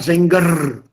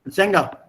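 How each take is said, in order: First: The final R is clearly pronounced. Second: The final R is merged into the vowel. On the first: The speaker calls it wrong. "not Zenger" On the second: The speaker calls it right. "Masculine, Zenga"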